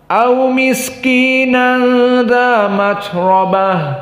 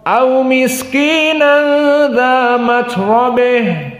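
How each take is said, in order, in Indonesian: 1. Vokal sebelum b di akhir itu 'a' terbuka. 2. Vokal sebelum b di akhir condong ke 'e'. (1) "Qiraah yang pertama dibaca fathah" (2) "yang kedua dibaca dengan al-imalah al-kubra"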